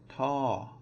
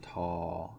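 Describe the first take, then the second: First: The pitch falls across the syllable. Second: The pitch stays low across the syllable. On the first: "it is going to be a falling tone" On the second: "it becomes a low tone"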